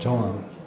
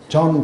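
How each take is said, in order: First: The vowel has a breathy h-like glide. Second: The vowel is plain with no breathy glide. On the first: People understand the name. The speaker calls it right. "조흔을 갖다가 빨리 하니까" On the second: People fail to understand the name. The speaker calls it wrong. "존 그러면 안 돼요"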